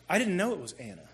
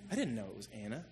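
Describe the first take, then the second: First: Said in the usual way. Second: Softer, lower echo of "I didn't know it was Anna"; quiet repeat. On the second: Real, not acted.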